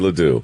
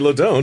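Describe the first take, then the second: First: The name ends with a 'doo' sound. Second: The name ends with a 'dont' sound. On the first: The speaker calls it right. "say Ledoux" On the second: The speaker calls it wrong. "don't say LeDon't"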